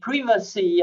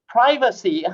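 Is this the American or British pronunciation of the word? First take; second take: British; American. First: The word is said in a British way. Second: The word is said in an American way. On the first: "the English say privacy" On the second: "the Americans say privacy"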